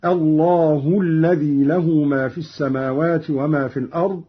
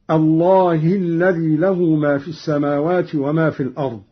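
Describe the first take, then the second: First: الله ending in u, allahu; nominative ha. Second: الله ending in i, allahi; reference reading. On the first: Reciter showing Qalun's raised ha, الله ending in u. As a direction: recite الله with damma on the final ha. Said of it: "قرأ قالون برفع هاء الجلالة". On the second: Reciter giving the verse before the variant, الله ending in i. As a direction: recite الله with kasra on the final ha. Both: Shown as a demonstration.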